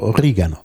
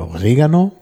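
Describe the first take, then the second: First: The stress is on the second syllable. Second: The stress is not on the second syllable. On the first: This is the standard form. "auf jeden Fall auf der zweiten Silbe betont" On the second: This is a dialectal, non-standard form. "Das ist nicht die Standardform"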